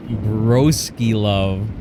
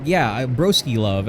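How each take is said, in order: First: "broski love" stretched out very slowly; slow drawn-out. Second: Said in the usual way. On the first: Shown as a demonstration. Realising it is more than bro love, very slow. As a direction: let broski love hang, slow and knowing. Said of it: "Oh, no". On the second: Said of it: "Oh, no, broski love".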